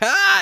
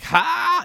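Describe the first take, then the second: First: The "ha" is said loudly. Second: The "ha" is said fairly quietly. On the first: The person is right up close. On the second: The person is still far away.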